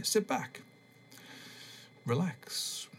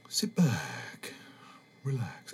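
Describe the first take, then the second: First: Relaxation voice, less put-on. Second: Put-on relaxation-tape voice, falling away; changed relaxation voice. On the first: Podcaster retries the tape intro in his own soothing voice. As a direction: guide them to relax without disguising your own voice. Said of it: "don't need to change my voice". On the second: Podcaster parodies a new age tape in a put-on soothing voice. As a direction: put on a hypnotist-style voice, letting each phrase sink. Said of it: "I'm changing my voice".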